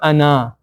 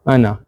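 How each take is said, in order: First: The final vowel is drawn out long. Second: The final vowel is short. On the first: The speaker calls it wrong. "So it's not أنا" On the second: The speaker calls it right.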